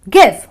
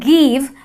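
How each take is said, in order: First: The vowel is short and brief. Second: The vowel is long and drawn out. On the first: The speaker calls it right. "It's a short, brief sound" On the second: The speaker calls it wrong. "and that is wrong"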